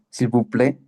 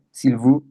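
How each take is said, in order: First: "s'il vous plaît" in French, vous as bu. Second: "s'il vous" with vous pushed louder, u sound; stress on vous. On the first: Teacher demonstrating French "s'il vous plaît". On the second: Teacher isolating "vous" for the class, a bit louder. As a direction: lean on "vous" so the u stands out. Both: Shown as a demonstration. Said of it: "ah, suena U".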